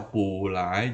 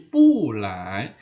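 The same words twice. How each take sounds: First: "pu lai" with both syllables rising; wrong second-tone pu. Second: "pu lai" with pu loud and falling, lai rising; correct fourth-tone pu. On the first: Teacher says there is no such reading, rising pu. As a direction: say "pu" climbing, not falling, before "lai". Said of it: "nggak ada pu lai". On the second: Teacher gives the correct reading, falling pu. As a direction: slowly drop "pu", then lift "lai". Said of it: "jadi pu lai". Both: Shown as a demonstration.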